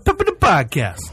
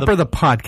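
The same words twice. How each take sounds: First: It is said in a put-on Italian accent. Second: It is said in the speaker's normal accent.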